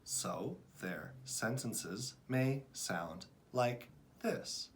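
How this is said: Each word is read separately with pauses between. The reader is still a beginner. The speaker calls it wrong. "beginning readers will read one word at a time"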